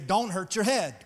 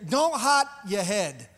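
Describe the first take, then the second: First: It is said with a Southern US accent. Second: It is said with a Trinidadian accent. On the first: "in south of Atlanta dialect, we would say" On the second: "those from Trinidad ... they'll say it this way"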